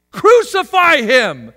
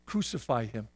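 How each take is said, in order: First: Loud, slow, raised cry; crowd's shout. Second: Low, hushed report of a shout; understated quote. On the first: Acted. Preacher acts the crowd condemning Jesus, shouting. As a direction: shout it out as the mob. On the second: Retold or imitated. Preacher reports the crowd's verdict, understated. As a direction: say the crowd's cry low and soft. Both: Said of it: "to the shouts of".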